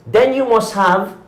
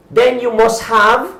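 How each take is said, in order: Both takes have the same delivery.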